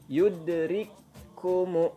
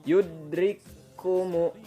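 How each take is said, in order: Both takes have the same delivery.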